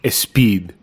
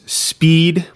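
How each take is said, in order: First: A vowel sound is added before the s. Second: The word starts directly with the s sound. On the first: "insert a vowel before the word" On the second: "If the word is speed"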